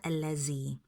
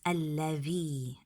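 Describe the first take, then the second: First: The middle consonant is a 'z' sound. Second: The middle consonant is a voiced 'th' sound. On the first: The speaker calls it wrong. "not allazi" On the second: The speaker calls it right. "the letter dhal is like a th, like these and those"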